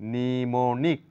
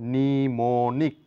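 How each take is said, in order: No difference in how they are said.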